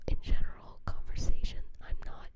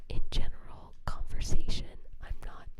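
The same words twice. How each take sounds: The two takes are said the same way.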